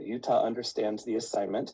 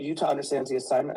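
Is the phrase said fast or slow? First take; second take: slow; fast. First: The phrase is said at a slower pace. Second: The phrase is said at a quicker pace.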